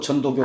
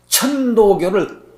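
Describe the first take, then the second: First: The first syllable starts with a soft 'j' sound. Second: The first syllable starts with a breathy 'ch' sound. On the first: The speaker calls it wrong. "자꾸 전도교 전도교 그러신다" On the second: The speaker calls it right. "천자가 발음이 잘 안 돼요"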